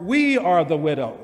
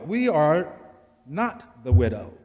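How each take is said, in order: First: Said in the usual way. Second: "not" punched and held apart; stress on not. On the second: Shown as a demonstration. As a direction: hit the word "not" hard.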